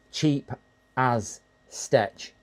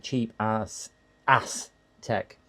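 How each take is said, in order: First: "cheap as Stetch" sounded out in separate words; mistaken reading. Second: "cheap as Aztec" pieced together after rereading; reread name. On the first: Dyslexic streamer showing what they keep seeing, a mistaken reading. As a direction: decode it word by word, landing on "Stetch". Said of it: "I keep thinking it's". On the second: Dyslexic streamer rereading the name several times, carefully decoded. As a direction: work through to "Aztec" in place of "Stetch". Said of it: "I have to reread it several times". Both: Shown as a demonstration.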